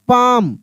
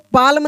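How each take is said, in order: First: The L sound is left out of the word. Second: The L sound is pronounced in the word. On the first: The speaker calls it right. "इसको पढ़ेंगे यहाँ पे पाम" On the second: The speaker calls it wrong. "पाल्म नहीं पढ़ेंगे"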